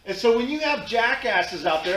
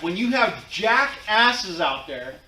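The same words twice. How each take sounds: First: Said in the usual way. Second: Slow repeat, punching "jackasses" hard; stress on jackasses. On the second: Shown as a demonstration. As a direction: drag out "jackasses" with heavy weight. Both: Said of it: "I'm gonna repeat that".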